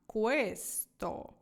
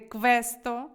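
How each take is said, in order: First: The opening sounds like a smooth kw. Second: The opening sounds like a croaking kv. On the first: The speaker calls it right. "а questo" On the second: The speaker calls it wrong. "не квакаємо з вами. Не questo"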